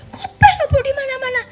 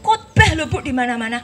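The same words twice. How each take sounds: First: Very high, loud cry of grief; wife shouting in heartbreak; anguished shout. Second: High, loud cry breaking into tears; wife crying out about her husband; distressed cry. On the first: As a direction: shriek the accusation through tears. Wife repeats, crying out louder. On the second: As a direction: wail it out in grief. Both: Retold or imitated.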